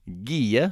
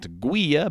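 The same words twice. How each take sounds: First: The u after the g is silent. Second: The u is pronounced after the g. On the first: The speaker calls it right. "so the U is silent" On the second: The speaker calls it wrong. "that is not"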